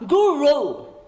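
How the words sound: It is said with an American accent.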